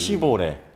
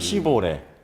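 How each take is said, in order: First: The name is said in a Japanese-influenced Korean way. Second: The name is said in a Japanese-influenced Korean way.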